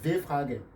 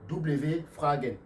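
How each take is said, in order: First: The first letter is read as a plain 'v'. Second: The first letter is read as French 'double-v'. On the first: It is the German way of reading it. The speaker calls it right. "Mais en allemand, ça se dit" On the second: It is the French way of reading it. The speaker calls it wrong. "en français, vous allez dire"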